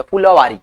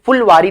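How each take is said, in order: First: फुलवारी as "phu-la-waari", with a vowel after the l; corrected pronunciation. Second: फुलवारी as "phul-waari", no vowel after the l; clipped-syllable wrong take. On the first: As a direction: give the "la" in फुलवारी its own syllable. (फुलवारी में 'ल' पूरा, फु-ल-वारी) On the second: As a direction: run the l of फुलवारी straight into "waari". (फुलवारी में 'ल' आधा, फुल्-वारी) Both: Shown as a demonstration. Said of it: "फुलवारी नहीं होता".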